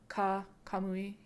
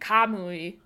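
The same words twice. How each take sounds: First: The word is said flat with no extra stress. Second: The word has extra stress on the 'a' syllable. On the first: The speaker calls it right. "but you don't put an extra emphasis on the A" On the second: The speaker calls it wrong. "You were saying Kamui"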